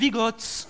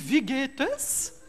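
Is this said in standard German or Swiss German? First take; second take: Swiss German; standard German. First: It is said in a Swiss German accent. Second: It is said in a standard German accent. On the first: "les bourbines, ils disent Wie geht's?" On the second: "en allemand, comment ça va? Ça se dit Wie geht es?"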